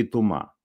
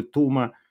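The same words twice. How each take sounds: First: «Тума» stressed on the final МА; stress on last syllable. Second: «Тума» with the beat on ТУ; stress on first syllable. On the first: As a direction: put the beat on the end of «Тума». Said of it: "где ударение". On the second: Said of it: "что такое". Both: Shown as a demonstration.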